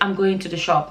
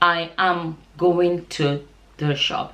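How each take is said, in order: First: The words run together, with a contraction. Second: Each word is said separately, without contraction. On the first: The speaker calls it wrong. "don't join your words together" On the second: The speaker calls it right. "Say the words singly like that"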